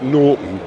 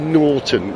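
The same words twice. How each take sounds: First: The middle T sound is dropped. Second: The middle T sound is clearly pronounced. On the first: This is the former way of saying it. The speaker calls it wrong. "not Norton, which is what I used to say" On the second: This is the current way of saying it. The speaker calls it right. "Got to pronounce the T"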